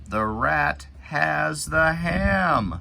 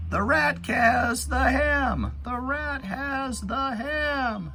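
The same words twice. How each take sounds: First: High, loud excited reading; slow excited storybook exclaim; exclamation. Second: Very high, loud, slow mock shout; hammed-up storybook shout for kids. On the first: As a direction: make the exclamation pop, higher and louder. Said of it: "Exclamation mark at the end". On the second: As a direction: shout it out like the rat grabbed it. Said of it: "kinda like it's shouting". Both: Shown as a demonstration.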